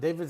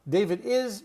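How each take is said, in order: First: It is contracted into one word. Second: It is said as two full words. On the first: The speaker calls it right. "is after a name is always apostrophe S" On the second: The speaker calls it wrong.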